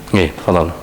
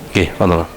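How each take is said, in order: No difference in how they are said.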